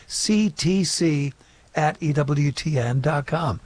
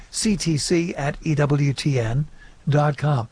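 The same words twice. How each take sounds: First: Slow, spaced-out repeat of the email address; a bit slower. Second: Said in the usual way. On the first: Shown as a demonstration. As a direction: spell out "C T C" slowly, letter by letter. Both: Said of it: "a little bit slower".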